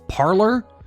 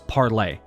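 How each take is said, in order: First: The name ends with an 'er' sound. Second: The name ends with an 'ay' sound. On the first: This is the common American way of saying it. The speaker calls it wrong. "people in America seem to be all calling this Parler" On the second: This is how the app developers intended it, like the French term. The speaker calls it right. "the correct and initial pronunciation"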